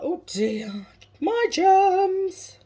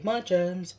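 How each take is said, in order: First: High, loud mock wail on the germs; hammed-up film quote, leaping high and loud; Scary Movie impression. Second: Said in the usual way. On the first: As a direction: squeal it like a comic film character. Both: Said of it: "Scary Movie".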